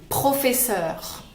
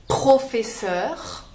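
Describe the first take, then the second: The two takes are said the same way.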